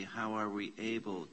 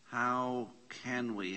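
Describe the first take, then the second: First: Said in the usual way. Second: Slow reading. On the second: Shown as a demonstration.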